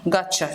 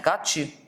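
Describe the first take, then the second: First: The words blend into one word ending cha. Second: Got and you are said as separate words. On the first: "You say gotcha" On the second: "Instead of saying"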